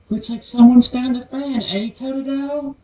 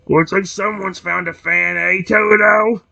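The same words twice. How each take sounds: First: The voice is soft and feminine. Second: The voice is plain, not soft or feminine.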